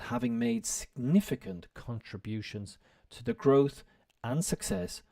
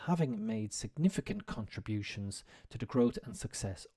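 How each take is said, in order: First: It is read at a slower, careful pace. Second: It is read at a quicker pace.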